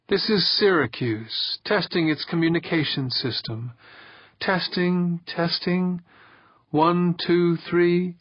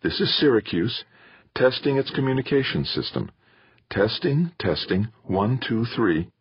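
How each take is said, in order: First: High, measured recorded voice; Pauline. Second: Higher, calm radio-check voice; mother's steady transmission, pitched up. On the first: Playback of a ship testing its communication system, high and measured. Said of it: "Pauline's voice". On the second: Mother testing the ship's communication system, calm and steady. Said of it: "he heard his mother's calm, steady voice". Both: A narrator's reading.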